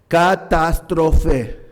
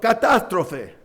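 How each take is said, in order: First: The word is pronounced the Greek way. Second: The word is pronounced the Spanish way. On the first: "no voy a pronunciarlo en español, lo voy a pronunciar en griego" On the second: "sacamos la palabra en español"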